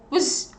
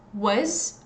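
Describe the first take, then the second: First: The word has no vowel between consonants. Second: The word has a weak schwa vowel. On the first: "without the schwa sound" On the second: "with the schwa sound"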